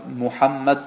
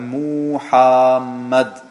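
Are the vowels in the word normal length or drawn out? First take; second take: normal; drawn out. First: The u and a vowels are normal length. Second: The u and a vowels are drawn out. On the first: The speaker calls it right. "statt dass er Muhammad sagt" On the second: The speaker calls it wrong. "dann hat er ein U zu lang gesprochen und ein A nach dem H ebenfalls zu lang gesprochen"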